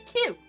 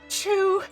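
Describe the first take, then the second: First: The letter name begins with a k sound. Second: The letter name begins with a ch sound. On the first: The speaker calls it right. "You say Q" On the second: The speaker calls it wrong. "you don't say chew"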